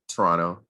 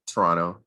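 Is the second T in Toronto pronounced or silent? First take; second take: silent; silent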